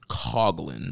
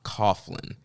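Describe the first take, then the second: First: The 'gh' is not said as an f sound. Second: The 'gh' is said as an f sound. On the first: The speaker calls it right. "It is Coughlin" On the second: The speaker calls it wrong. "not Coughlin"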